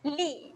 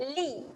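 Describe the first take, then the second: First: The vowel is held for one short beat. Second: The vowel is held for one short beat.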